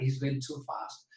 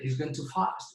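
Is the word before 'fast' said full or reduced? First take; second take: full; reduced. First: The word before 'fast' is full and strong. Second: The word before 'fast' is weak and reduced. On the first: He is going excessively fast. "va demasiado rápido" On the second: He is going to fast. "va a ayunar"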